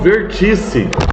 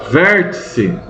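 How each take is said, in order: First: The stress is on the second syllable. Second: The stress is on the first syllable. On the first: The speaker calls it wrong. "nunca digam vertice" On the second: The speaker calls it right. "Cuidado com o acento"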